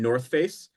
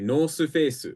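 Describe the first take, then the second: First: It is said with English pronunciation. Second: It is said with Japanese pronunciation.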